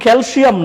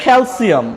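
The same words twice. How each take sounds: First: "ক্যালসিয়াম" with sh in the middle; mispronounced SH. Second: "ক্যালসিয়াম" with a clean s, kel-siam; corrected S sound. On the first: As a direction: say "ক্যালসিয়াম" as kel-SHIAM. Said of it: "উচ্চারণটা কিন্তু ভুল". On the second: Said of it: "এটার উচ্চারণ হচ্ছে". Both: Shown as a demonstration.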